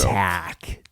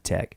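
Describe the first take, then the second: First: The vowel sounds like the one in 'cat'. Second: The vowel sounds like the one in 'bed'. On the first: The speaker calls it right. "I got to say that right" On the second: The speaker calls it wrong. "I've been saying tech"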